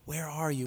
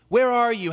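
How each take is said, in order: First: It is said in a heartbroken tone. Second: It is said in an angry tone.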